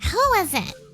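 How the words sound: It is said in a put-on character voice.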